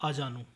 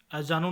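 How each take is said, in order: First: Said in the usual way. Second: अजानू opening on short a or e; mispronunciation. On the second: Shown as a demonstration. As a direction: cut the first vowel of अजानू short. (अजानू, शुरू में छोटा अ) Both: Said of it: "नहीं".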